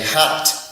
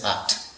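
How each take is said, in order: First: The word starts with a clear h sound. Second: The h sound is dropped, dialect style.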